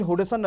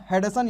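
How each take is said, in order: First: हुडसन, opening like "Hud" with a rounded u; first vowel of हुडसन as "u", not "a"; alternative pronunciation. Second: हडसन, opening like "Had-san"; first vowel of हडसन as "a", not "u"; alternative pronunciation. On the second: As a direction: say हडसन with a short "a" in the first syllable. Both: Shown as a demonstration. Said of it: "या फिर हुडसन नदी बोलते हैं".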